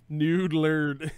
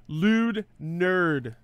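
First: Spoonerized "Nude lerd" for lewd nerd. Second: Said in the usual way. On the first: Shown as a demonstration. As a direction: swap sounds: "Nude lerd". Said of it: "Nude, nude, lewd". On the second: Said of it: "nude lerd also sounds pretty funny".

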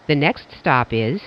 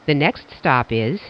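The two takes are said the same way.

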